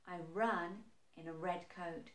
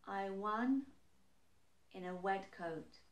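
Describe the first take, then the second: First: The R sounds are said as real R sounds. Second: The R sounds are said like W sounds. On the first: The speaker calls it right. "rather than" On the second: The speaker calls it wrong. "pronounce the R like a W"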